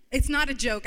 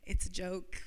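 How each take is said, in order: First: Not hit louder with a falling tune; stress on not. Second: Said in the usual way. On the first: Shown as a demonstration. To the congregation, correcting herself with stress on not. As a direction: punch the word not, then let it drop.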